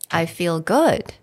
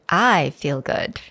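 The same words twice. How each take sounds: First: The stress is on "good". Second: The stress is on "I".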